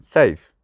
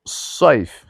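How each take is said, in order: First: سیف with a light everyday s; سیف, no heaviness on the s; ordinary Sin. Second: صیف with a heavy drawn-out s; صیف, weighty opening, not a thin sin; emphatic Sad. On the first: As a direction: say سیف with a thin s and front vowel, "sayf". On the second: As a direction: say صیف with thick s and darkened vowel. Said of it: "اما صاد". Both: Shown as a demonstration.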